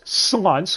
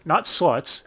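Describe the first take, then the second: First: "slunts" with an n before the t, raised and stressed. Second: "sluts" said normally, no n sound; the ordinary word "sluts"; plain. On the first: Quoting the dub, stressing the odd word "slunts". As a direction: hit the n in "slunts". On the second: Quoting the dub, saying "sluts" plainly. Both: Retold or imitated.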